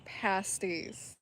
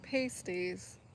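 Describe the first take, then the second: First: The first syllable sounds like 'past'. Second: The first syllable sounds like 'paste'. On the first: The speaker calls it right. "they're pasties. Past ease" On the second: The speaker calls it wrong. "They're not pasties"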